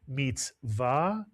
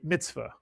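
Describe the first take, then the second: First: It is said in Sephardic Hebrew pronunciation. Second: It is said in the common everyday pronunciation. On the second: "You'll hear people say"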